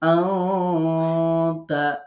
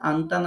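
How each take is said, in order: First: The n is hidden in a held nasal sound. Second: The n is pronounced as a plain, clear n. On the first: The speaker calls it right. "এরকম বলে নাকের স্বরে একটু দম ধরে রেখে গণ্যা করে" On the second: The speaker calls it wrong. "আন্তা না পড়ে"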